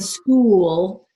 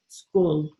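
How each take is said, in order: First: The vowel is stretched long before the L. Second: The vowel is cut short before the L. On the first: The speaker calls it right. "the vowel sound stretches a little bit longer before we put the L in" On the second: The speaker calls it wrong. "yours comes out more like school, school ... the vowel sound almost gets cut off"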